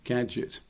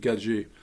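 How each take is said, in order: First: It is said with an English-style ending. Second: It is said with a French-style ending. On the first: "English-speaking people pronounce that gadget" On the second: "said across along the bottom"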